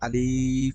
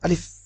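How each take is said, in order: First: The vowel is drawn out long. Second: The vowel is short and quick. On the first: The speaker calls it wrong. "অনেকে বলার সময় আলিফ এভাবে করি, বলি, এটা হচ্ছে ভুল" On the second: The speaker calls it right. "তাড়াতাড়ি। এটার মধ্যে কোনো টান হবে না"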